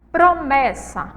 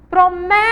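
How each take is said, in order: First: Said in the usual way. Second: Promessa with MÉ held long, high and loud; calling the word. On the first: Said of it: "é simplesmente chamar". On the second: Shown as a demonstration. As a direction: call out "Promessa", stretching the mé. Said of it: "Então, o mé aí". (chamar "Promessa" alto, alongando o mé)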